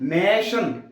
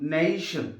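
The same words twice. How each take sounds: First: The first vowel is one steady long sound. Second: The first vowel glides from an e towards ee. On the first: The speaker calls it wrong. "నేషన్ అంటాం" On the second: The speaker calls it right. "కాదు నేషన్"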